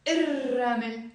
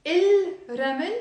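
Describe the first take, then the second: First: الرمل as ir-ramel with a rolled double R; silent lam. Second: الرمل as il-ramel, L sounded, louder; wrong option, clear L before the R in الرمل; lam pronounced. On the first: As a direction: drop the L and roll the R in الرمل. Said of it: "تاني وحدة". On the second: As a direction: keep il apart from ramel in الرمل. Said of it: "We don't pronounce the lam". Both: Shown as a demonstration.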